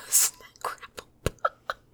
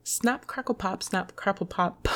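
First: Breathy whisper. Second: Said in the usual way. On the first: Real, not acted. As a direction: whisper it through giggles. Whispered after laugh.

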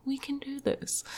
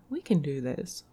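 First: Soft, higher self-encouragement; pep talk. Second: Said in the usual way. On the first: Real, not acted. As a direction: coax yourself gently.

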